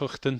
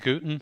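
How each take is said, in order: First: The name starts with a throaty H sound. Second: The name starts with a hard G sound. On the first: This is the Dutch way of saying it. "Dutch is Huchten" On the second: This is the Australian way of saying it. "Australians say Guten"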